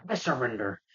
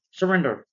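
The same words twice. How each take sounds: First: Understated feigned surrender; Green Goblin. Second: Higher, louder mock order; police command. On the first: Retold or imitated. Goblin answering the cops before punching them, mock-compliant. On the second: Cops ordering Green Goblin to give up, commanding. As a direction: call it out like a cop.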